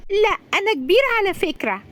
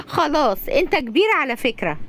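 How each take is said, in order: First: Put-on very high little-kid voice; high, childish objection; small child protesting. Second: High voice just after a giggle; higher, playful giving-in; amused, laughing. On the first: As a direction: insist like a proud four-year-old. Four-year-old protests to an adult. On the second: Acted. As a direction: humour the child, amused. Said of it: "صفاء بضحكة".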